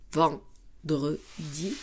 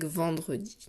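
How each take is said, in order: First: VENDREDI split as ven, dre, di with pauses; very slow VENDREDI, one beat per syllable. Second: Said in the usual way. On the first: Shown as a demonstration. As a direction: tap out each syllable of vendredi separately. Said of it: "je tape".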